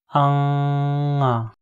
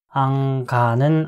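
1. 둘째 음절은 모음으로 시작합니다. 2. 둘째 음절은 g 소리로 시작합니다. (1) "앙아로 읽으면 맞습니다" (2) "앙가는 아니고"

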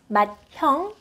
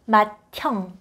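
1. d 소리 뒤에 h 소리가 와요. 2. d와 h가 합쳐져 t 소리가 돼요. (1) "is not pronounced" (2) "it's pronounced"

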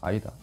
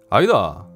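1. 표준 억양으로 평범하게 발음되었습니다. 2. 경상도 방언 억양으로 발음되었습니다. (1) "이렇게 읽어야 되나? 아이다. 저는 그렇게 읽습니다" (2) "네이티브 발음으로 한번 들어보시겠습니다"

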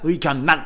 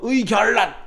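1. 가운데 자음은 ㄴ 소리로 발음됩니다. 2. 가운데 자음은 ㄹ 소리로 발음됩니다.

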